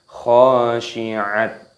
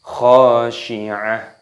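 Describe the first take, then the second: First: The word ends with a t sound. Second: The word ends with an h sound. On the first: The speaker calls it wrong. "bukan khashi'at" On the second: The speaker calls it right. "dimatikan menjadi huruf H"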